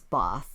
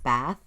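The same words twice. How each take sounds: First: It is said in a put-on British accent. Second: It is said in the speaker's everyday accent. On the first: "I have to put on a British accent to make it sound right" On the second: "I would usually pronounce it as Bath"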